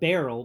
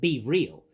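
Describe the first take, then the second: First: The name sounds like the word barrel. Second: The name sounds like the words be real. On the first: This is the accepted pronunciation of the name. "it's pronounced barrel" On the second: This is the speaker's own pronunciation of the name. "I pronounce it Be Real"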